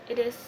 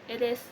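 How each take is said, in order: No difference in how they are said.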